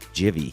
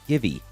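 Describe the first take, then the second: First: It begins with a J sound. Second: It begins with a hard G sound. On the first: "the G should be pronounced as a J and thus pronouncing it Jivy" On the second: "G I V E, which leads many to pronounce it as Givey"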